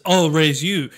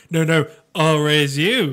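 First: Said in the usual way. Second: Counter-bid with the weight on "you"; slower, mock one-upping, leaning on "you"; stress on "you". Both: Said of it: "This entire episode is".

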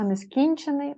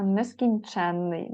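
First: Нескінчений with stress on КІН, short н; stress on second syllable. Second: Нескінченний slowly, stress on ЧЕН; stress on third syllable. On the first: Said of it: "а нескінчений одна". (нескінчений: наголос на КІН, коротке «н») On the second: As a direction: draw out ЧЕН in нескінченний with long нн. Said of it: "нескінченний дві". (нескінченний: повільно, наголос на ЧЕН) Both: Shown as a demonstration.

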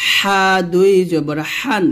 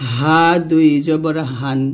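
First: Tight-throated h in হান; slow pharyngeal হা; pressed ha. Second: Said in the usual way. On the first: Shown as a demonstration. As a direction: press হা and হান with thin air, slowly. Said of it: "এই হাটা আমরা কিন্তু চাপ দিব". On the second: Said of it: "নরমালভাবে উচ্চারণ করব".

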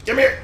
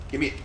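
First: High squeaky loud grab for the car; high, loud demand. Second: Said in the usual way. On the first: Acted. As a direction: give me it, pitched way up and loud.

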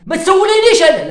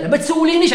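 First: Mock angry shout. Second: Said in the usual way. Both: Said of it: "انا معصب انا دركا".

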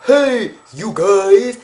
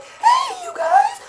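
First: Much lower, voice dropped; deep greeting. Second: Much higher, voice cracking; high greeting. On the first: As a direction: say hey you guys very low. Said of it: "For me to be like". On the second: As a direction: say hey you guys high and thin. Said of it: "just as fucking weird". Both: Shown as a demonstration.

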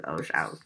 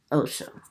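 First: "Osho" ending in an "ow" sound, OH-show with "show" rhyming with "cow"; accented Osho. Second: Said in the usual way. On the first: Real, not acted. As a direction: say "Osho" low, with the last vowel widened to "ow". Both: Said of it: "Y'all can hear my accent too".

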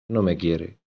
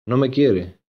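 First: "No me quiere" lower and much softer, the voice cracking; voice breaking. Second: Said in the usual way. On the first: A narrator's reading. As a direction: let it crumble on the repeat, near tears. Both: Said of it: "se le quebró la voz".

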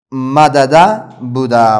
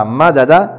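First: مدده said very slowly, each syllable ma-da-da drawn apart; slow spelled-out form. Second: Said in the usual way. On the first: Shown as a demonstration. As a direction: stretch out مدده syllable by syllable to show the doubled dal. (مدده را آهسته و هجا به هجا بگو)

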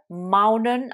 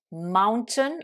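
First: MOUNTAIN with the t dropped, "MOW-nun"; American "mountain", silent t after n; American pronunciation. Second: MOUNTAIN with the t sounded, "MOWN-tun"; British "mountain", clear t after the n; British pronunciation. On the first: Teacher contrasting for learners, American mountain without its t. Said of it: "anglais américain". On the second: Teacher modelling for learners, British mountain with t pronounced. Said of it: "anglais britannique". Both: Shown as a demonstration.

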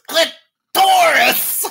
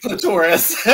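First: High, loud, drawn-out "Clitoris!"; Gilbert Gottfried. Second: "clitoris" as cli-TOR-is, through laughter; imitated pronunciation. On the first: Retold or imitated. Imitating a celebrity audiobook narrator, shouting "Clitoris!" slowly. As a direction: shout "Clitoris!" as CLIT-TORIS, stretching both halves. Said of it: "He actually said it like this". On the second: Retelling the narrator's "clitoris" as cli-TOR-is, amused. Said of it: "He said clitoris".

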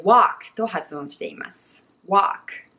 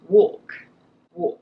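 First: Walk with open ah, like wahk; American walk, wide ah vowel; American pronunciation. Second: Walk with a rounded aw, like katakana; British walk, rounded vowel and silent L; British pronunciation. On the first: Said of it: "アメリカ英語では私たちは". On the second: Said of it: "イギリス英語の発音はかなりカタカナに近い". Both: Shown as a demonstration.

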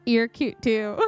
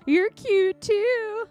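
First: Said in the usual way. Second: High, drawn-out cutesy gushing; cutesy flirting. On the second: Acted. Flirty game character returning a compliment, cutesy. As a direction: gush it slowly and sweetly, up high.

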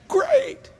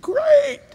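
First: Very high sarcastic "Great." rising at the end; a squeaky, questioning "Great." going up; mock sarcasm. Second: Very high sarcastic "Great." falling at the end; mock sarcasm. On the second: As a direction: toss off a squeaky, falling "Great.". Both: Mock envy of bigger plane.

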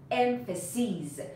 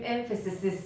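First: Emphases with a drawn-out final "seez"; plural long-ee ending. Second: Emphasis with an extra "-iz" syllable tacked on; wrong regular plural. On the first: Teacher repeating the correct plural for learners, emphases ending in long ee. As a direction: stretch the ee in emphases, "EM-fuh-seez". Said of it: "کافیه این آی رو تبدیل کنی به ای". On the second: Teacher showing learners a hard, incorrect plural, emphasis with doubled ending. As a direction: say emphasis as "EM-fuh-sis-iz". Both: Shown as a demonstration.

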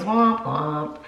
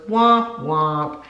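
First: A lightly voiced womp womp, pitched down; lower sad trombone womp. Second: A lightly imitated little girl's womp womp; toddler womp womp. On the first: Husband answers the sad book line with a low womp womp. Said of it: "And he goes". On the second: Daughter mocks mom's sad remark with a womp womp. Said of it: "my daughter goes".

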